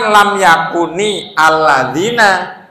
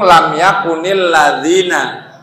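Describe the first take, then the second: First: The words are kept separate, not linked. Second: The words are linked into one flow. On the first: This is the original form of each word. "Aslinya kan" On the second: This is how it sounds when recited connected. "Karena disambung"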